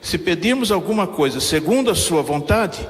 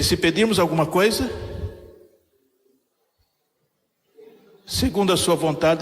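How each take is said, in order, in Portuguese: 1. Não há pausa depois de 'alguma coisa'. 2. Há uma pausa depois de 'alguma coisa'. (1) "Eu tirei a vírgula" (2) "algumas Bíblias têm trazido uma outra leitura"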